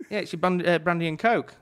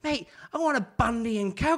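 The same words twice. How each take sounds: First: Said in the usual way. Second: High, loud, exasperated mock-Aussie; Aussie accent. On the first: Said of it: "me with my accent". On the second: Aussie customer demanding his drink from barman, put-on Aussie accent. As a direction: imitate an insistent Aussie drinker. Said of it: "Aussie accent".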